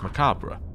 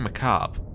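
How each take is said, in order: First: The final part of the word is pronounced. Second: The final part of the word is dropped. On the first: "I've always heard it as macabre ... in British English, you pronounce the bit at the end" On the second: "American shows, they keep saying macabre ... In American English, you don't"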